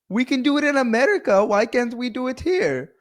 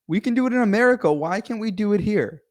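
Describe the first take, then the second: First: It is said in an Indian accent. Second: It is said in the speaker's normal accent.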